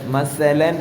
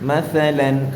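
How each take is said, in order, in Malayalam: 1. ഈ വ്യഞ്ജനം ശക്തമായ ചീറ്റുന്ന s ആണ്. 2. ഈ വ്യഞ്ജനം മൃദുവായ th ആണ്, നാവ് പല്ലുകൾക്കിടയിൽ. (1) "സ സ വളരെ വ്യക്തമായി കാറ്റ് പുറത്തേക്ക്" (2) "ഇങ്ങനെയാണ് ഉച്ചാരണം വരേണ്ടത്"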